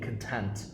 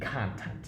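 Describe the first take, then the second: First: The stress is on the second syllable. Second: The stress is on the first syllable. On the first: It means feeling satisfied. "the word that is an emotion of feeling content" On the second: It means media material. "it being content? Now, a completely different word"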